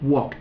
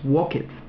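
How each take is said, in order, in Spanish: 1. La terminación es un sonido 't' corto. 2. La terminación es una sílaba 'ed' separada. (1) "es más un sonido como una tch, que es como t" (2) "no es walked"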